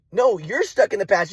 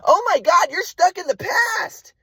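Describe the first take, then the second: First: "you're" stressed in a slow retort at usual pitch. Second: Very high, drawn-out mock wail as mom; exasperated mother imitation. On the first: Retold or imitated. Son turning mom's accusation back on her, "you're" stressed. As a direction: throw it back, leaning on "you're". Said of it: "And I'm like". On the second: Mom cutting off son's explanation, exasperated high mock wail. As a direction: mimic mom's high-pitched exasperation, stretching the end. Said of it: "And my mom's like".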